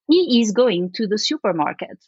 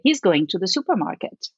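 First: Every word is fully pronounced, with no contraction. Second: He is is shortened to a single syllable. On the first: The speaker sounds overly formal and careful. The speaker calls it wrong. "They over enunciate everything" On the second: The speaker sounds natural and everyday. The speaker calls it right. "when you would say"

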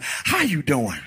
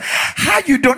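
First: The greeting sounds warm and sincere. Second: The greeting sounds fake and overdone.

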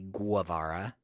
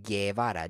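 First: A U sound follows the G. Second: No U sound follows the G. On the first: The speaker calls it wrong. "he's not called Che Guevara" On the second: The speaker calls it right. "He's called Che Guevara"

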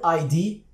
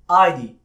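First: The stress is on the second letter. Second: The stress is on the first letter. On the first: The speaker calls it right. "has a stress on the D" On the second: The speaker calls it wrong. "with the stress on the I"

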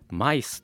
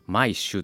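First: The word ends with a plain 's' sound. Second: The word ends with an 'sh' sound.

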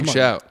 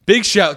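First: It is said flatly, with little energy. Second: It is said loudly, with lots of energy. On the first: The speaker calls it wrong. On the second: The speaker calls it right.

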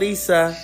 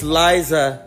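First: The middle consonant is a hissing s sound. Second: The middle consonant is a buzzing z sound. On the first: The speaker calls it wrong. "not Lisa" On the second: The speaker calls it right. "it's Liza"

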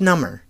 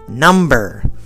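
First: The B is silent in the word. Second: The B is pronounced in the word. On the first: It means more numb. "when I got stung by a bee, it was number" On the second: It means a numeral. "I'm talking about numbers 1, 2, 3, it's number"

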